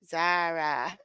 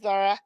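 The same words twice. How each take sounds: First: The name is strained toward an Australian pronunciation. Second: The name is said in the speaker's usual accent. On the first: "See what happens when I try to say it right" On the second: "which is not the way it's pronounced in Australia"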